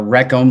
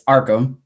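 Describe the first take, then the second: First: The first syllable sounds like 'wreck'. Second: The first syllable sounds like 'ark'. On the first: The speaker calls it wrong. "like Wreck, uh, Wreck It Ralph" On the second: The speaker calls it right. "So I'll set the record straight"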